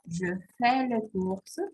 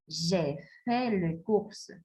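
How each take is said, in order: First: "Je fais les courses" read slowly, "Je" as a short schwa; teacher reading "Je fais les courses" slowly; slow model French reading. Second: "J'ai fait les courses" read slowly, "J'ai" with a long open "é"; teacher reading "J'ai fait les courses" slowly; slow model French reading. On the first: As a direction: spell out "Je fais" with a light "je". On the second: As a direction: linger on "J'ai" so the auxiliary is heard. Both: Shown as a demonstration. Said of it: "voy a leer estas oraciones y practican en casa".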